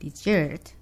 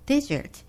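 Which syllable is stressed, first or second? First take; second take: second; first. First: The stress is on the second syllable. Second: The stress is on the first syllable. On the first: Sweet food eaten after a meal. "when I stress on the second syllable" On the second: A large, hot and dry area. "has a stress on the first syllable"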